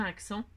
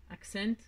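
First: Said in the usual way. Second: Attempted English pronunciation of "Accent". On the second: Shown as a demonstration. Crafter showing off the glue's English name, English accent on "Accent". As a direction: say "Accent" the English way, ending on a sounded n. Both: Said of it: "Avec mon superbe accent".

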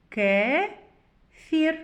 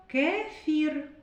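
First: "Кефір" split as Ке, pause, фір; reading by syllables. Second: Said in the usual way. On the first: Shown as a demonstration. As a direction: read "Кефір" slowly in two separate syllables. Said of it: "Прочитаємо". («Кефір» по складах: Ке-фір) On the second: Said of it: "Звуковий аналіз слова".

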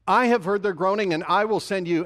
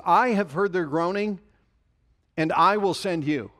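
First: "I have heard their groaning" louder, with "have" hit hard, then "will" punched in "and I will send you"; louder emphatic repeat. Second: "I have heard their groaning" with the word "I" leaned on, then "and I will send you" with "I" pushed and falling at the end; stress on I. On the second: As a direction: press the word "I" in both halves. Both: Shown as a demonstration. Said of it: "a couple of phrases here that you need to catch".

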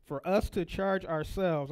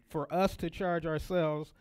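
First: Slow, stressed reading of "for us to charge ourselves"; slow emphatic reread of "for us to charge ourselves"; emphasized. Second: Said in the usual way. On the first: Shown as a demonstration. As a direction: lean on "us" and draw "charge ourselves" out slowly. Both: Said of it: "I'm emphasizing that".

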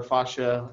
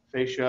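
First: Fascia said FAH-shuh; alternative pronunciation. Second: Fascia said FAY-shuh; first pronunciation. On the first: Lecturer offering the other heard pronunciation of fascia, FAH-shuh. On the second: Lecturer giving students one way of saying fascia, FAY-shuh. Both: Shown as a demonstration. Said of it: "as I've heard it pronounced".

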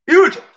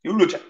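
First: "où" raised high and loud, rising; louder, higher ask. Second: Said in the usual way. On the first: Shown as a demonstration. (« où » crié plus haut et plus fort)

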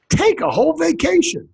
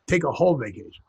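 First: High-pitched exclamation of surprise; surprised. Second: Said in the usual way. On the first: Acted. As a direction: exclaim it high, like a startled Dane. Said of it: "when the Danish people are surprised".

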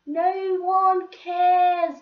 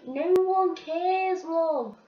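First: Sung slowly, much louder and higher; sung, sing-song mockery. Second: Slow, pointed, higher brush-off; dismissive put-down. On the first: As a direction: taunt it like a playground chant. Repeats put-down, sung and louder. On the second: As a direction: cut her down to size. Mocking the bitchy girls on bus. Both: Real, not acted.

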